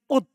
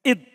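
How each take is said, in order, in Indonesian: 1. Suku kata pertama memiliki vokal u. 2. Suku kata pertama memiliki vokal i. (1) "Di dhammah hamzanya" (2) "Boleh dikasro juga. Dibaca id"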